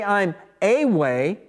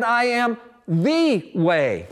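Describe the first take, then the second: First: Said in the usual way. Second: "the" slowly leaned on, the word itself weighted; stress on THE. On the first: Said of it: "Jesus didn't say". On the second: Shown as a demonstration. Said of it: "He said".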